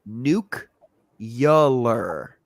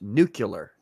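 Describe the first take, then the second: First: An extra 'yuh' sound comes before the end. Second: No extra 'yuh' sound comes before the end. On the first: "the way that Americans say it, they add ... a vowel in between the consonants" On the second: "It's pronounced nuclear"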